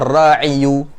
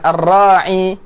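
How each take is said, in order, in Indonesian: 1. Kata ini berakhir dengan u setelah y. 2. Kata ini berakhir dengan i panjang biasa. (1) "kita memperjelas harakat akhirnya ar-ra'iyu" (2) "ketika kita mengucapkan ar-ra'i ini lebih ringan"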